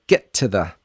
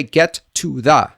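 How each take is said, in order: First: "get to the" with stop T and weak "tuh"; lower, easy, rhythmic "get to the"; reduced linking. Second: "get to the" slow and separate, full vowels; wrong-way demo, every word of "get to the" heavy; unreduced words. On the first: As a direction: keep "to the" light and quick after "get". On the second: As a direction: overpronounce "to" and "the" as "too thah". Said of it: "Don't say". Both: Shown as a demonstration.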